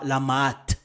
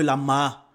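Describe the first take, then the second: First: The word ends with a sounded T. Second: The word ends on a vowel, no T. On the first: The speaker calls it wrong. "et non pas la Maat" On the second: The speaker calls it right. "on dira par exemple la Ma"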